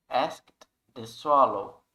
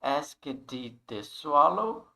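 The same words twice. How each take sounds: First: Slow "asked the swallow", "asked" one syllable ending in T. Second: "asked" as "ask-edi" before "the swallow"; mispronounced asked. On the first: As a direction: close "asked" on "skt", no extra syllable. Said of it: "mas um som de T". ("asked" com som de T, devagar) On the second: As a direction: add an extra "ed" syllable to "asked". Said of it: "Então não é". ("asked" errado, com sílaba "édi" a mais) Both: Shown as a demonstration.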